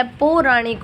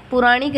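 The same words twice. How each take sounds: First: पौराणिक with long o/au in first syllable; double matra. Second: पुराणिक with short u in first syllable; wrong form. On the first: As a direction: say पौराणिक opening on pau, not pu. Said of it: "पो के ऊपर double मात्रा". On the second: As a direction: say पुराणिक opening on pu. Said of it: "पुराणिक नहीं होता है". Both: Shown as a demonstration.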